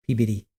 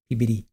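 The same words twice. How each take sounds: The two takes are said the same way.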